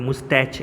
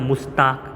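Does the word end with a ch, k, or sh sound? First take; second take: ch; k. First: The word ends with a ch sound. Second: The word ends with a k sound. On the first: "ઉચ્ચાર તો બધા મુસ્તાક કે મુસ્ટેચ એવો કરતા હોય છે" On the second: "ઉચ્ચાર તો બધા મુસ્તાક કે મુસ્ટેચ એવો કરતા હોય છે"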